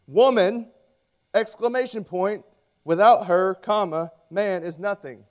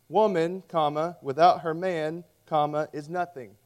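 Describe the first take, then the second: First: "Woman!" punched high and loud, then a break after "without her"; "Woman" high and loud, "without her" pause, "man is nothing" falling; girls' punctuation. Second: Put-on pauses after woman and after man, read as the boys punctuated it; "Woman," pause, "without her man," pause, "is nothing" said steadily; boys' punctuation. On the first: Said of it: "The girls wrote this". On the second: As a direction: let the commas sit after "Woman" and after "man". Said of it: "The boys wrote what you see on the screen". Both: Shown as a demonstration.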